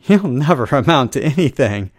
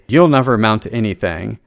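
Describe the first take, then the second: First: It is said in an upbeat, joyous voice. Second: It is said in a dark, gloomy voice.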